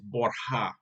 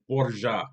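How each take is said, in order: First: The name is pronounced the Spanish way. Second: The name is pronounced the Italian way. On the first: "but in Spanish it's Borja" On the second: "the pronunciation of the family name in Italian is Borgia"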